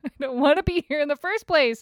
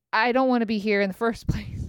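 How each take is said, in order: First: Laughing, pitched way up in exasperation; venting about a bad morning, laughing whine; laughing high whine. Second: Said in the usual way. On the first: Real, not acted. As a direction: whine it through a laugh, much higher.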